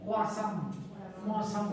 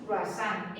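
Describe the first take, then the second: First: Croissant in a nasal French accent, kwasã, very slow on the repeat; croissant said fully through the nose like a French speaker. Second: Croissant said the Spanish way, kruasán with a clear n; Spanish croissant with every letter sounded. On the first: Teacher mimicking how the French say croissant, nasal French. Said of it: "con toda la nariz". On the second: Teacher giving the class the Castilian croissant. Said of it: "En castellano es croissant". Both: Shown as a demonstration.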